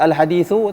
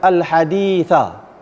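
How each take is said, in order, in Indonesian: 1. Kata itu diakhiri dengan vokal u. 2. Kata itu diakhiri dengan vokal a. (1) "Tak boleh baca al-hadithu" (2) "kita baca al-haditha"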